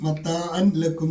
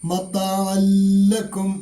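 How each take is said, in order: First: The n sound is pronounced before the l. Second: The n sound merges into the following l. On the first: The speaker calls it wrong. "എന്ന് വായിക്കില്ല" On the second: The speaker calls it right. "നൂനിനെ മണിക്കാതെ ലാമിലേക്ക് ലയിപ്പിച്ചാണ് മൊഴിയേണ്ടത്"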